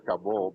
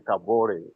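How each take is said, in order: First: "Kabor" in two syllables, no final vowel; English pronunciation. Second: "Kabore" in three syllables, ending -ray; African pronunciation. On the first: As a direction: say "Kabor" ending on -bor. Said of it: "English people say Kabor". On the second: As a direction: sound the last e of "Kabore". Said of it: "but we as African". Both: Shown as a demonstration.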